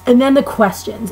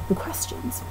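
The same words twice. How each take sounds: First: Said in the usual way. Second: Whispered aside, almost no voice. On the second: Real, not acted. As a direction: breathe the words to yourself. Repeats heading under her breath.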